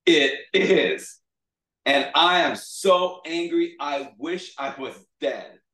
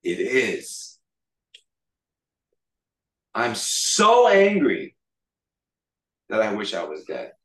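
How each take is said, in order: First: Loud, high sulky outburst, dropping at the end; hammed-up pout, drawn out. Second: Acted angry defiance, pausing between phrases. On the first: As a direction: sulk loudly like a thwarted child. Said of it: "like, pouting now". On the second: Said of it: "he said an offensive Hebrew phrase".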